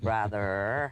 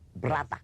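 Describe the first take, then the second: First: It is said in a plain, non-German accent. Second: It is said in a German-sounding accent. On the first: This is how the king could not say it. "George the Third who couldn't say" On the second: This is how the king said it. "He could only say ... because he was German"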